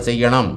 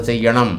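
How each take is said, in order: No difference in how they are said.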